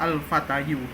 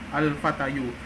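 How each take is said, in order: The two takes are said the same way.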